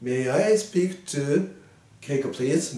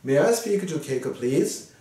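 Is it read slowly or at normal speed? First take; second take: slowly; normal speed. First: It is read rather slowly. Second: It is read at normal speed.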